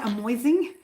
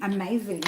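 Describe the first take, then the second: First: Amoising with an oi sound, 아모이징; amoising, oi in place of ay; mispronounced amazing. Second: Said in the usual way. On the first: Shown as a demonstration. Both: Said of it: "I was about to say amoising".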